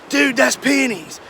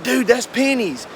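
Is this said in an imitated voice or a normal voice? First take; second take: imitated; normal. First: It is said in an imitated, put-on voice. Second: It is said in the speaker's normal voice.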